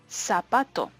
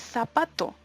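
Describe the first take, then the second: First: The z is made like a hissing s. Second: The z is made between the teeth, like th.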